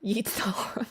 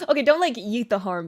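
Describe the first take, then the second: First: A sly little whispered aside. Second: Louder, quicker, laughing it off; take-back. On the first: Pretend. Singer whispering a cheeky tip to her viewers, whispered. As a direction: whisper "Yeet the harm" like a naughty secret. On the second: Real, not acted. Singer walking back her joke tip to viewers, amused and louder. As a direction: take back "yeet the harm" out loud with a grin.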